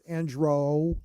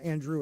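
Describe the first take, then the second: First: The name ends with an 'oh' vowel. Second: The name ends with an 'oo' vowel. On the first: The speaker calls it right. "It's Andro" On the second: The speaker calls it wrong. "It's not Andrew"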